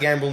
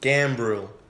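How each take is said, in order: First: The name is said without an R sound. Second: The name is said with a clear R sound. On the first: The speaker calls it wrong. "I feel like you didn't pronounce the R" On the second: The speaker calls it right.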